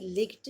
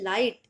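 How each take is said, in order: First: A short i and a g sound are heard. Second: A long i is heard with no g sound. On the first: The speaker calls it wrong. "लिग्ट नहीं" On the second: The speaker calls it right. "इसको हम बोलेंगे लाइट"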